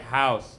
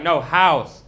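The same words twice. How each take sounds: First: "House." with a thick lisp, lower; lisped repeat. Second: "house" said louder with a crisp s; correcting pronunciation. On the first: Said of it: "I was like". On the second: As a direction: correct him, hit "house" hard and clean. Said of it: "she was like". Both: Retold or imitated.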